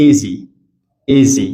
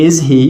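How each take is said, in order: First: "is he" as "izzy", no H; is he as one word; connected speech. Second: "is he" with a full H; two separate words, is and he; unlinked form. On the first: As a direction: drop the H and join is to he. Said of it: "we're gonna say". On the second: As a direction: pronounce the H of he. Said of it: "We don't say". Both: Shown as a demonstration.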